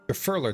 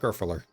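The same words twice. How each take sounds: First: The stress is on the middle syllable. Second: The stress is not on the middle syllable. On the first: The speaker calls it right. "emphasis on the middle syllable of three" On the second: The speaker calls it wrong.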